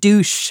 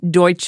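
First: It is said like the English word 'douche'. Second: It is said the German way. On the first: The speaker calls it wrong. "not like douche, right? Which was the early American pronunciation" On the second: The speaker calls it right. "pronounce Deutsche like that"

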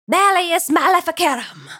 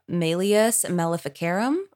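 First: It is said dramatically, like a magic spell. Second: It is said plainly, as an ordinary title.

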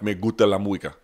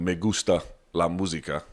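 First: It is said with coastal Spanish, S sounds dropped. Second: It is said with an American gringo accent.

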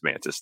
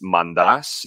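First: The name is said with an American pronunciation. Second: The name is said with a Greek pronunciation. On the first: This is the everyday adapted way. "been Americanized, everybody just says Mantis" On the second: This is the original way in the family's language. "is how you say it in Greek"

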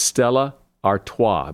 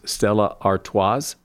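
First: The final S of Artois is silent. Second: The final S of Artois is pronounced. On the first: The speaker calls it right. "The last S is silent" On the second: The speaker calls it wrong. "A lot of people pronounce that last S as"

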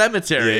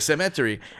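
First: It is said with standard English stress. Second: It is said with his Filipino mom's stress placement.

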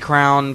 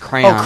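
First: The word sounds like 'crown'. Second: The word sounds like 'cray-on'. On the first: "I say crown" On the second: "but it's crayon"

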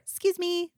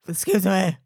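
First: It is said in a lovely, warm way. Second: It is said in a curt, clipped way.

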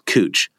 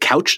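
First: The vowel sounds like 'oo' as in moon. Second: The vowel sounds like 'ow' as in cow. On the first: The speaker calls it right. "it's Cooch. It's spelled couch" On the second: The speaker calls it wrong. "is it Couch Street in downtown Portland? No"

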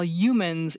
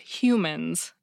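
First: The word begins without an H sound. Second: The word begins with an H sound. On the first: "didn't pronounce his H's at the beginning of certain words" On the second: "instead of humans"

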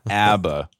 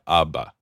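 First: The name is said with an American pronunciation. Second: The name is said with a European pronunciation. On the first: The speaker calls it wrong. "That's how the Americans say it" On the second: The speaker calls it right. "on the continent, ... So we're going to try ABBA"

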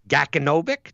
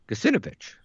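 First: The first C is a hard K sound. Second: The first C is a soft sound. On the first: The speaker calls it wrong. "That doesn't sound right" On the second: The speaker calls it right. "So it's a soft C, huh?"

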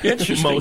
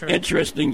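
First: It is said in a mildly pleased tone. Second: It is said in a flat, bored tone. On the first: The speaker finds it fairly cool. "that's pretty cool" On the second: The speaker does not really care. "yeah, whatever"

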